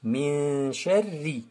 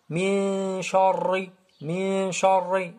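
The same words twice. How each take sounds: First: "sharri" with a thin, light ra, like "sherri"; correct light ra. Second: "sharri" with a thick, darkened vowel, like "shorri"; wrong heavy ra. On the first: Teacher corrects the mistake, thin ra in "sharri". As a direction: lower pitch, long "min", then light "sharri". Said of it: "Non, on dit". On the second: Teacher shows the mistake, heavy ra in "sharri". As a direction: make the ra in "sharri" heavy and rounded. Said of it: "On dit pas". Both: Shown as a demonstration.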